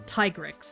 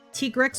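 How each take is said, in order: First: The first syllable sounds like tie. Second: The first syllable sounds like tea. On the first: "Or is it tie like the like a bow tie?" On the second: "is it tea as in, like, uh, the drink?"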